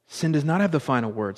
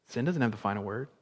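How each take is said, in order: First: Full-voiced, spelling out "does not"; firm proclamation. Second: Low, soft and quick statement; hushed assurance. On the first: Preacher declaring salvation to the congregation, firm proclamation. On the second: Preacher reassuring the congregation after "Praise God", hushed. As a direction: say it softly, like a settled truth. Preacher quietly restates, then proclaims it. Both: Real, not acted.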